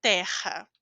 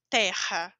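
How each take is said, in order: First: Terra with the R from the throat; throaty R in Terra. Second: Terra with a hard T, no ch sound; plain T in terra. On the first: Teacher recalling the throat R in Terra. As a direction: roll Terra's R at the back of the throat. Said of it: "Lembra da pronúncia da garganta?". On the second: Teacher showing terra with a plain T. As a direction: say terra with a clean T. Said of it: "eu digo T normal". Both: Shown as a demonstration.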